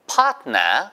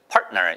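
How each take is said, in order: First: It is said with a British accent. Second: It is said with an American accent. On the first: "이거는 영국식 발음이에요" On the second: "이게 미국식 발음입니다"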